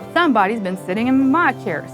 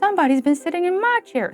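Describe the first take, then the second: First: It is said in a gruff, rough voice. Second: It is said in a middle-sized voice.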